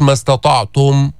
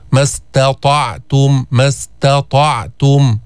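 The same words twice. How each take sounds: First: ما استطعتم with a light ت and full ضمة, heavy ط. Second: ما استطعتم with ت and ط both heavy; same ta and taa. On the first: Teacher models the light ت for the class. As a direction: say ما استطعتم with a thin ت against the heavy ط. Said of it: "رققها وجيب الضمة كاملة". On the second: Teacher imitates a student's wrong ت for the class. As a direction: say ما استطعتم with no difference between ت and ط. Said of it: "بتعملهم مثل بعض". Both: Shown as a demonstration.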